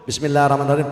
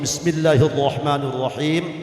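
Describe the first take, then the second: First: It is read quickly and plainly, without stretching vowels. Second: It is recited slowly with long, drawn-out vowels. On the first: The speaker calls it right. "Atau cukup" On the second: The speaker calls it wrong. "Kalau baca kitab jangan terlalu sehat"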